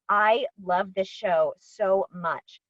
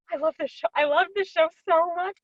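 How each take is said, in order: First: "so much" drawn out slowly for weight; emphatic fondness. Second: Gasp, then high gushing; through-the-roof excited. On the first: Real, not acted. Actor telling host about a favorite show, slow emphatic fondness. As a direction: say "I loved this show so much" slowly, leaning on each word. Stating fondness, first take. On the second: Retold or imitated. Actor reliving being cast in a beloved show, gushing excitement. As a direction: reenact giddy delight in a much higher voice. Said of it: "absolutely just through the roof excited".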